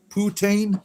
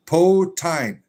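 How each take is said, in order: First: "Putain?" in a mock French poo-TAN, pitched high as a question. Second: Put-on "Potine" said as poh-teen, a touch higher and louder. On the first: Trying the Canadian viewer's French way, mock French questioning. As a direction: ask "Putain?" like a puzzled fake Frenchman. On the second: Teasing Canadian viewers, saying it as poh-teen. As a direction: call it "Potine", poh-TEEN, the plain American way. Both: Shown as a demonstration. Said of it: "You never heard it pronounced that way?".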